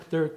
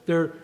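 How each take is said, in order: Both takes have the same delivery.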